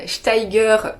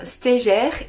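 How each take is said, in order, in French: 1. Le nom se prononce à la suisse. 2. Le nom se prononce à la française générale. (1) "Anne Steiger pour les Suisses" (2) "c'est bien Anne Steger"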